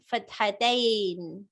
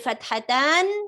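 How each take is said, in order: First: The word ends with an 'ain' sound. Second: The word ends with an 'an' sound. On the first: This is the form used when something changes grammatically. "some people pronounce it as" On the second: This is the original form. "is the original uh, form of the word"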